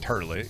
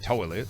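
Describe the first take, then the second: First: The first vowel sounds like 'er'. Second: The first vowel sounds like 'oy'. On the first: The speaker calls it wrong. "Ain't nobody out here saying turlet" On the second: The speaker calls it right. "Y'all say toilet"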